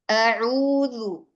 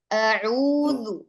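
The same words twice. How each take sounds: Both takes have the same delivery.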